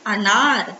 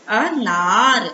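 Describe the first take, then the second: First: Said in the usual way. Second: अनार very slowly, अ apart, then long नार; syllable by syllable. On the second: Shown as a demonstration. Teacher blending अनार for children, syllable by syllable. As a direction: stretch अनार out, holding the naa.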